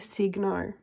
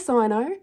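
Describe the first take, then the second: First: The first syllable sounds like 'sig'. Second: The first syllable sounds like 'sign'. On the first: The speaker calls it right. "apparently Mitsubishi has confirmed it's actually Signo" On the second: The speaker calls it wrong. "I say Cyano"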